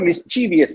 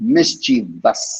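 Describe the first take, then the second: First: An extra syllable comes before the ending. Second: The word ends directly in a short ending. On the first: The speaker calls it wrong. "மிஸ்சீவியஸ்ன்னு கொண்டு போக தேவையில்லை" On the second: The speaker calls it right. "It's மிஸ்சீவஸ். பஸ்ன்னு இறங்கணும்"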